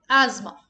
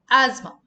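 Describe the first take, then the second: No difference in how they are said.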